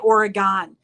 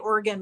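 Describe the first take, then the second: First: The word does not sound like 'organ'. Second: The word sounds like 'organ'. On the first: The speaker calls it wrong. "you can't say Oregon" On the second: The speaker calls it right. "You have to say Oregon like it's organ"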